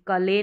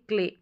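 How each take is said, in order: First: A vowel separates the k and l sounds. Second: The k and l sounds form one cluster. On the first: The speaker calls it wrong. "जैसे कले नहीं पढ़ेंगे" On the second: The speaker calls it right. "आधा क पढ़ेंगे, क्ल"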